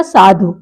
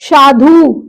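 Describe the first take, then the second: First: साधु lower, short final dhu; correct short vowel. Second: साधु with dhū held long; wrong long vowel. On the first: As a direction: clip the end of साधु. (साधु में छोटा उ) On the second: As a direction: stretch साधु into shādhūū. (साधु में ऊ खींचकर) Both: Shown as a demonstration. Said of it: "साधु का क्या हो जाएगा?".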